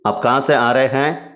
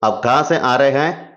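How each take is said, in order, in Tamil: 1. வார்த்தைகள் ஒன்றோடொன்று சேர்ந்து சுருக்கப்படுகின்றன. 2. வார்த்தைகள் ஒன்றோடொன்று சேர்ந்து சுருக்கப்படுகின்றன.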